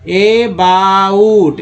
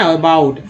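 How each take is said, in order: First: अबाउट stretched out very slowly; slow model word. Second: Said in the usual way. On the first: Shown as a demonstration. Teacher models a word for learners, very slowly. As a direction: draw out each sound of अबाउट.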